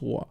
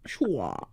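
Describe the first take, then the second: First: The name begins with a plain s sound. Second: The name begins with an sh sound. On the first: The speaker calls it right. "it's just Swa" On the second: The speaker calls it wrong. "I know there's no Schwa"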